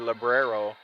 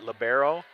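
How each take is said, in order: First: An extra R sound follows the B. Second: There is no R sound after the B.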